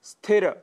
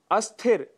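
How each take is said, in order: First: स्थिर starting cleanly on s; no vowel before स्थिर, "sthira"; correct pronunciation. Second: अस्थिर with a short a before the s; mispronunciation with added a. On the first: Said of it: "जबकि शुद्ध शब्द है". (स्थिर का शुद्ध उच्चारण, बिना अ या इ) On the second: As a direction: put an extra "a" first: अस्थिर. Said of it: "स्थिर की जगह हम अस्थिर". (अस्थिर, अ जोड़कर अशुद्ध उच्चारण) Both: Shown as a demonstration.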